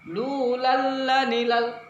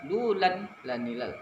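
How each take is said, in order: First: The l merges straight in, no n sound. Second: An n sound is heard before the l. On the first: The speaker calls it right. "masukkan langsung" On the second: The speaker calls it wrong. "Jangan berbunyi lan pula. ... Salah"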